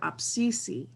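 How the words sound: It is said quietly and gently. It sincerely states a true thing. "if you say it softer"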